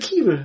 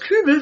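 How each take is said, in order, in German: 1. Der Vokal ist ein ungerundeter i-Laut. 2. Der Vokal ist ein gerundeter ü-Laut. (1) "wird zu Kiebel" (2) "das Ü aus Kübel"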